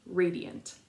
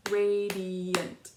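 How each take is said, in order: First: Said in the usual way. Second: Radiant split into three loud clapped beats, RA-DI-ANT; clapped syllables. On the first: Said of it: "You can say it with me". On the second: Shown as a demonstration. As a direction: clap out Radiant syllable by syllable, a bit louder. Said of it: "Ready, clap".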